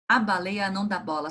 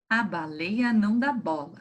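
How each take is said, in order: First: It is read at the quickest pace. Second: It is read faster than the first time. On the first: "Será que a gente consegue mais rapidinho?" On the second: "Será que a gente consegue ler mais rapidinho?"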